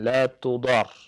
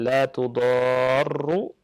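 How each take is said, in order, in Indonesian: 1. Kata terakhir diakhiri dengan r tanpa vokal. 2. Kata terakhir diakhiri dengan r ganda dan u. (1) "dengan sukun" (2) "dengan doma"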